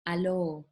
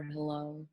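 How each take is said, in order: First: "allo" without the h of hello; father's mispronunciation. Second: Said in the usual way. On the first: Retold or imitated. Poet quoting father's English, "allo" with no h. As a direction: drop the h, say "allo". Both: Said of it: "allo for hello".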